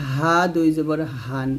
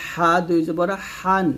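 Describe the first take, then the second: First: হা with an easy, unpressed h, ending হান; normal hā. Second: হা squeezed from the throat, ending হান; pressed ḥā. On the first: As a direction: relax the throat on হা and হান. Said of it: "এটা normally বলতে হবে". (হা স্বাভাবিকভাবে, চাপ ছাড়া) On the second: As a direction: push a tight Arabic ḥ in হা and হান. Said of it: "এটা চাপ দিয়ে বলতে হবে". (হা গলায় চাপ দিয়ে) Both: Shown as a demonstration.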